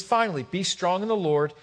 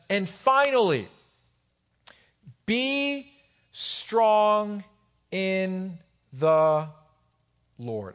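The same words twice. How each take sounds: First: Said in the usual way. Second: Word by word, with long pauses; slow emphatic reading. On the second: Real, not acted. Preacher reading Paul's letter to the church, slow emphatic reading.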